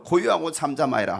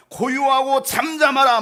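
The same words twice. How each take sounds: First: Said in the usual way. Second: Loud, raised command to be still; rebuking command. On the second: Acted. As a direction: rebuke the storm with force. (꾸짖듯 크고 높게 명령) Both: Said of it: "바람을 꾸짖으시고".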